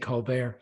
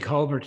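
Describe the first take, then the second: First: The name is said with an American pronunciation. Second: The name is said with an Irish pronunciation. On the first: "the Americans tend to say Colbert" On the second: "which is the way the Irish pronounce it"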